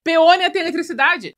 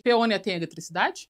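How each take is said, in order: First: Loud, higher declaration; loud comic insistence on the answer; emphatic exclamation. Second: Said in the usual way. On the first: Real, not acted. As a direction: belt it out as a big revelation. Answers own question with emphasis.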